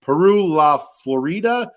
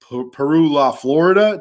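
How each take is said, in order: First: "Florida" said flo-REE-da; Spanish-style Florida. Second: "Florida" as everyday American FLOR-uh-duh; hillbilly-ish Florida. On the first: Host testing the coffee blend's name, "Florida" as flo-REE-da. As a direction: try "Peru La Florida" with a long, stressed REE in "Florida". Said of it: "I always wanna say Florida". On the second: Host retrying the blend's name, homely American FLOR-uh-duh for "Florida". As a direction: stress the first syllable of "Florida", middle reduced to uh. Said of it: "that sounds hillbilly-ish". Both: Shown as a demonstration.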